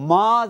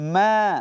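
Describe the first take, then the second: First: The vowel sounds heavy and thick, pressed. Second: The vowel sounds light and thin, naturally stretched. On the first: The speaker calls it wrong. "মা যেন না হয়, তাহলে মোটা হবে" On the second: The speaker calls it right. "স্বাভাবিকভাবে মিমে খাড়া যাবার আলিফ টেনে পড়তে হবে"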